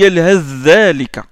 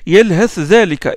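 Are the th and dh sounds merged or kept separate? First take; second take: merged; separate. First: The th sound merges into the following dh. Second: The th and dh sounds are pronounced separately. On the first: This is the reading of one tradition. "l'élision de Hafs" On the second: This is the reading of another tradition. "il ne fait pas l'élision"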